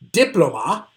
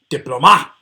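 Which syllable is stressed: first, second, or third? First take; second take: first; third. First: The stress is on the first syllable. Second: The stress is on the third syllable. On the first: "three possibilities for how to properly pronounce this word" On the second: "it just doesn't sound right"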